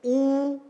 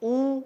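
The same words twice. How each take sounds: First: "ऊ" held as a long oo; long oo vowel. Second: "ऊ" said as a brief u; short u vowel. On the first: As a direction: draw "ऊ" out. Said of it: "समय ज्यादा लगा". ("ऊ" का दीर्घ उच्चारण) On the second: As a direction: clip "ऊ" short. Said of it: "समय कम लगा". ("ऊ" का ह्रस्व उच्चारण) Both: Shown as a demonstration.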